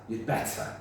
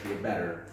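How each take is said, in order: First: It is said in a British accent. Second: It is said in an American accent. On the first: "British pronunciation" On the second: "American pronunciation"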